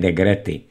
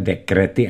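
First: The middle consonant is a voiced g sound. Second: The middle consonant is a voiceless k sound. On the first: The speaker calls it wrong. "a ne degrety" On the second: The speaker calls it right. "Říká se dekrety"

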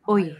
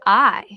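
First: The vowel is a rounded "oy" sound. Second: The vowel is a plain "eye" sound. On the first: "in an Irish accent, we say oil" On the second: "in English, we say I"

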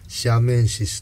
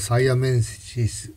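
First: The word begins with the sound 'shi'. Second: The word begins with the sound 'sai'. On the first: "シアメンシスとかサイアメンシス" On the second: "英語的な発音ですとサイアメンシス"

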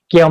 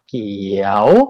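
First: The syllable is said on a level mid tone. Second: The syllable is said on a rising tone. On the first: "เสียงสามัญ" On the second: "เสียงจัตวา"

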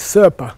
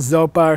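First: The name starts with an 's' sound. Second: The name starts with a 'z' sound. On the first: The speaker calls it right. "It's Serpa. It's an S" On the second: The speaker calls it wrong. "people say Lama Zopa or something and they just, they're butchering the poor great Lama's name"

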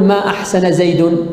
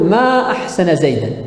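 First: The final word ends in a u vowel. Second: The final word ends in an a vowel. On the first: It denies that he did good. "تارة بالرفع" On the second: It expresses wonder at how good he is. "بالنصب"

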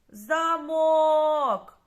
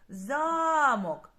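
First: The stress is on the last syllable. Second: The stress is on the first syllable. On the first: "Куди падає наголос в нашому слові? На останній склад" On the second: "стоїть у нас на першому складі"

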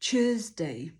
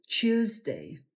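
First: It starts with a quick 'choo' sound. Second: It starts with a 'chyoo' sound. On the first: "bardzo naturalną wymowę z szybkim czy na początku słowa" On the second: "pomiędzy czy a u dodać dźwięk i"

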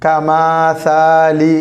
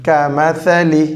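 First: The vowels are drawn out and lengthened. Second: The vowels are kept short and crisp. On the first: The speaker calls it wrong. "நாம் இழுத்து படிக்கக்கூடாது" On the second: The speaker calls it right. "குரில் இழுக்காமல் படிக்க வேண்டும்"

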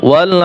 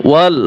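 No difference in how they are said.

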